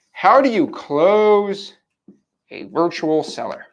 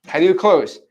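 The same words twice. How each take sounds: First: Very slow, stretched-out words; dramatic drawn-out question. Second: Said in the usual way. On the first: Real, not acted. Trainer poses the big closing question to viewers, dramatically drawn out. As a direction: draw out every word for suspense.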